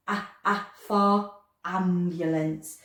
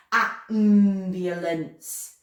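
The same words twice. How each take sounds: First: Slowly A, A for ambulance, the A stressed; slow sounding out. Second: Slow robotic Ambulance, flat and mechanical. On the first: Teacher stressing the first sound for children: slow. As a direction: stretch the A sound out for the class. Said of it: "We have to slow that one right down". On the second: Teacher turning the class into robots: slow robot voice. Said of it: "Let's turn into robots and say it slow". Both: Shown as a demonstration.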